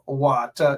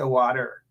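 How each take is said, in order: First: It is said with a Guyanese accent. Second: It is said with an American accent. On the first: "they don't say water no more" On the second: "they say water"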